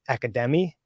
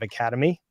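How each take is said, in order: First: The stress falls on an unusual syllable. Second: The stress falls on the usual syllable.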